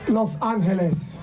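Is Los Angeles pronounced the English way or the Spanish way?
Spanish. It is said with a Spanish pronunciation.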